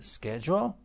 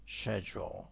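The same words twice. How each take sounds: First: Schedule with a hard SK onset; American pronunciation. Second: Schedule with a soft SH onset; British pronunciation. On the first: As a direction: contrast it as American SKED-jool for schedule. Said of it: "American schedule". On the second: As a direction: contrast it as British SHED-jool for schedule. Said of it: "British schedule". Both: Shown as a demonstration.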